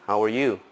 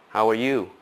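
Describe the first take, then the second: Both takes have the same delivery.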